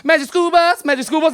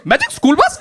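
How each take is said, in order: First: Chanted, lightly imitated kids cheering a show title; kids' eager sing-out, mildly put on; chanting white kids. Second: Put-on puzzled kid with an Indian accent; put-on Indian accent, questioning rise. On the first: Chanted, comic mimics white kids recalling their cartoon, lightly put-on kid voices. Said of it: "a bunch of white kids being like". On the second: Comic plays the one odd cartoon kid, questioning Indian accent. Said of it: "he has an Indian accent".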